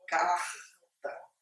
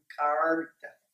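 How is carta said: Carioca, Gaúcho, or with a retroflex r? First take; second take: Carioca; retroflex. First: It is said in a Rio de Janeiro accent. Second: The r is pronounced as a retroflex sound. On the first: "conforme os cariocas falam" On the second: "que é um retroflexo"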